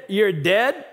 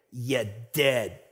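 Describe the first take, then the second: First: Said in the usual way. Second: Low, quiet Italian mafia threat; deep Italian accent. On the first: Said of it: "when they said". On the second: Acted. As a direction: growl it low like an Italian mob boss. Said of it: "in their deep Italian accent".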